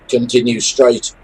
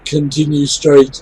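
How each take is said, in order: First: It is said in a flat, serious tone. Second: It is said with a laughing chuckle. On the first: "everything else is is deadly serious" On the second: "there's a definite chuckle in his voice"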